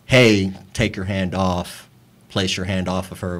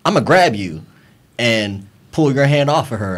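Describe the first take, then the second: First: Slow, lower, easy retold request; softly voiced, polite version of the demand; mild request. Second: Firmer retold threat, at normal volume; mildly forceful, no shouting; forceful grab warning. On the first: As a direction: ask gently, unhurried and low. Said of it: "it was not in a". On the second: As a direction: state it as a physical warning. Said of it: "It was one of those".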